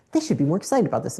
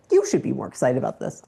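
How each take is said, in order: First: "They" pushed up and leaned on as the blamed team; stress on they. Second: "You" hit hard and lower, turning the blame back on herself; stress on you. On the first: Founder blaming her team, stress on "They". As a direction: put the weight on "They", pointing the finger at the team. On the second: Founder catching herself, stress on "You". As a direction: land the weight on "You" as self-accusation. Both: Retold or imitated.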